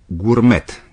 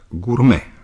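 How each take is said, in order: First: The final t is pronounced. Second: The final t is silent. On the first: "românii probabil îl pronunță cam cum se scrie" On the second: "se pronunță gourmet în limba franceză"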